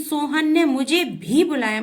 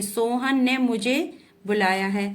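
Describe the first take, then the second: First: भी hit louder and higher in "Sohan ने मुझे भी बुलाया"; stress on भी. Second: Said in the usual way. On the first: Shown as a demonstration. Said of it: "जिन शब्दों पर अधिक जोर दिया जाता है". ("भी" पर ज़ोर, ऊँचा और तेज़) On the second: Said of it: "simple सा".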